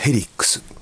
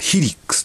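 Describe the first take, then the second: First: The first syllable has the vowel 'e'. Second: The first syllable has the vowel 'i'. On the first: The speaker calls it wrong. "ヘリックスと言わせていただきます" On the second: The speaker calls it right. "正しくはヒリックスという発音らしい"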